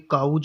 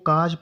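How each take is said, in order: First: The vowel glides like 'ow'. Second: The vowel is a plain long 'aw'. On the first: The speaker calls it wrong. "काउज नहीं पढ़ेंगे" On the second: The speaker calls it right. "इसको काज पढ़ेंगे"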